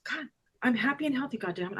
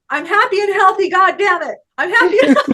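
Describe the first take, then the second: First: Quick, soft, said as if only thinking it; hurried undertone, dropping away at the end; retold thought. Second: High, loud, exuberant declaration; retold car shout. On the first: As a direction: toss it off softly, like a private thought. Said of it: "I'm thinking this". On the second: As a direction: belt it out, breaking into laughter. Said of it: "Say the words".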